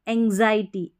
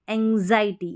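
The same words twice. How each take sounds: The two takes are said the same way.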